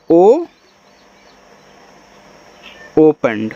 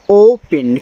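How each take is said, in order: First: "ओपन" after a drawn-out ओ and a long pause; slow sounding-out demo. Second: Said in the usual way. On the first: Shown as a demonstration. Teacher showing students how to read it, long ओ, pause, "ओपन". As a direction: hold the ओ, stop, then say "ओपन" low. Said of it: "ऐसे". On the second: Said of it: "इसको पढ़ते हैं यहाँ पे हम".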